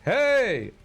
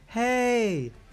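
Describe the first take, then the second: First: It is called in a full shouted voice. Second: It is called in a light head voice. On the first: The speaker calls it right. "You would say, hey, hey ... that shouted voice" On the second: The speaker calls it wrong. "You don't go, hey, hey, which I think is what you would call head voice"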